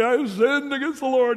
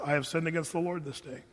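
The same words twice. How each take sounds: First: Hammed-up tearful wail, higher and louder; a showy televangelist sob on "I have sinned"; mock weeping confession. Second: Softer, plain and honest, no drama; simple sincere confession. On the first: What David didn't say to Nathan, in mock weeping. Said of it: "televangelist weeping on T V". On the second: Retold or imitated. David's quiet, sincere answer to Nathan the prophet. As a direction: say it quietly, just owning it. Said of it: "David says it like this".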